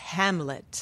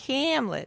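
First: The final t sound is crisp and clear. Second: The final t sound is weak or dropped. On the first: The speaker calls it right. "it's Hamlet" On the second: The speaker calls it wrong. "it's not Hamlet"

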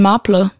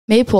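First: The name has a German pronunciation. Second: The name has an English pronunciation. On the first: The speaker calls it wrong. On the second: The speaker calls it right.

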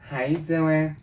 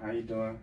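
First: It is said in a put-on girlish voice. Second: It is said in his normal voice.

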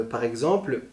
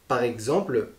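The two takes are said the same way.

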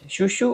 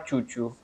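First: It begins with a soft 'sh' sound. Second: It begins with a 'ch' sound. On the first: "others like shu without the T sound" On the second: "Some people read it like chu"

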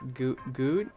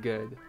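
First: The vowel is a rounded ooh sound. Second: The vowel is a relaxed schwa-like sound. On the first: The speaker calls it wrong. "has a little of an ooh sound" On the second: The speaker calls it right. "Instead of good... that sounds much more natural"

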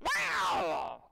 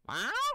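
First: The meow sounds angry and hostile. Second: The meow sounds confused and questioning.

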